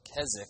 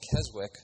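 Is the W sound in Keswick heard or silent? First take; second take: silent; heard. First: The W sound is left out entirely. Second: The W sound is pronounced in the middle. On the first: The speaker calls it right. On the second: The speaker calls it wrong.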